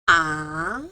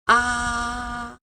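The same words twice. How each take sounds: First: The pitch rises from mid to high. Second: The pitch stays high and level. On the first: "it starts a little bit high, lower and then goes up" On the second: "starts with a high pitch, like here, and it goes flat"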